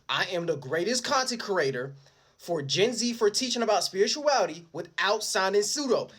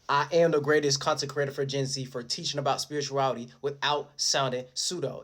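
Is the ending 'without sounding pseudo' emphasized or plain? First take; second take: emphasized; plain. First: The ending is said with heavy emphasis. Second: The ending is said without special emphasis.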